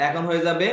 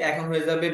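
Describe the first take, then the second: No difference in how they are said.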